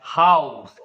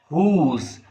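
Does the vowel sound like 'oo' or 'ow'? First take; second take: ow; oo. First: The vowel is an 'ow' sound. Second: The vowel is a long 'oo' sound. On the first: This is the modern pronunciation. "in modern English, we speak this word as house" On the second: This is the older pronunciation. "in Middle English period, people used to speak this word H O U S E as whose"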